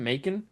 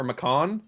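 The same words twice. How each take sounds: First: MACON rhymed with bacon, stressed on the first syllable; Macon with a long A up front. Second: MACON as muh-KAHN, stressed on the second syllable; Macon ending in a stressed "kahn"; alternative Macon pronunciation. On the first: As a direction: say Macon as MAY-kun, like bacon, questioning. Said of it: "like bacon with an M". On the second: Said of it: "Would it be like bacon". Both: Shown as a demonstration.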